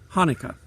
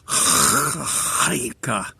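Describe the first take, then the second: First: It starts with a plain h sound. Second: It starts with a rough throat-clearing sound. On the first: The speaker calls it wrong. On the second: The speaker calls it right.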